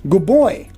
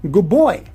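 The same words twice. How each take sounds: First: Good ends in a b sound. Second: Good ends in a b sound.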